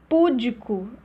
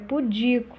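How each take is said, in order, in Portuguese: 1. A tônica está na primeira sílaba. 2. A tônica está na segunda sílaba. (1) "Púdico é pudico" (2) "Púdico é pudico"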